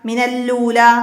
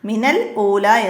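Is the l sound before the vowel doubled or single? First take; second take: doubled; single. First: A doubled l runs straight into ula. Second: A single l, then a glottal stop before ula. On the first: The speaker calls it wrong. "രണ്ട് ലാമ് ഒന്ന് ഷദ്ദുള്ളൊരക്ഷരമായിട്ട് വരും" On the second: The speaker calls it right. "ശ്രദ്ധിച്ചോദണം"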